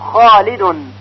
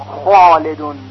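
First: The first consonant is said with an open mouth. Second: The first consonant is said with a closed, muffled mouth. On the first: The speaker calls it right. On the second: The speaker calls it wrong.

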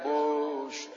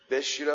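First: The first vowel sounds like u. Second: The first vowel sounds like i. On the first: The speaker calls it wrong. "بعضیا به غلط میگن" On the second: The speaker calls it right. "اصلش بشیره"

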